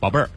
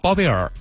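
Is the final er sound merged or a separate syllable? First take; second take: merged; separate. First: The er sound merges into the previous syllable. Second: The er sound is said as its own syllable. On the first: The speaker calls it right. "如果你发标准的话" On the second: The speaker calls it wrong. "如果呢发的不标准就"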